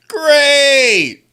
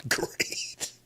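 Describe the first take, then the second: First: Loud, high drawn-out cry; exasperated yell. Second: Hushed, voiceless groan of dismay; strained whisper. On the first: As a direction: wail it out in mock despair. Same word repeated, now yelled. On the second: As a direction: force it out under your breath. Sarcastic reaction to matchup. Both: Real, not acted.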